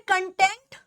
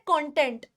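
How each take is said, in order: First: कंटेंट as "kun-TENT", weak first vowel; first pronunciation. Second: कंटेंट as "KON-tent", open O first; second pronunciation. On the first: Teacher contrasts two pronunciations, कंटेंट said "kun-TENT". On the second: Teacher contrasts two pronunciations, कंटेंट said "KON-tent". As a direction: say कंटेंट with a clear "kon" start. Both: Shown as a demonstration. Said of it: "इसकी दो प्रोनंसिएशंस होती हैं".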